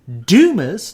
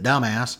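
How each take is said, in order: First: The name sounds like Dumas, not an insult. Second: The name sounds like the word dumbass. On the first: It is the town's real name. The speaker calls it right. "is the actual pronunciation of the town" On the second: It mocks the town name as an insult. The speaker calls it wrong. "My father pronounces it dumbass"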